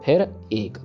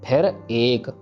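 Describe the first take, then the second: Both takes have the same delivery.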